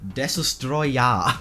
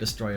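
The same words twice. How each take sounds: First: It is said with a Japanese pronunciation. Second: It is said as the ordinary English word. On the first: The speaker calls it right. "it's just the Japanese pronunciation of destroyer" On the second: The speaker calls it wrong. "it sounds like Destroyer if you don't know"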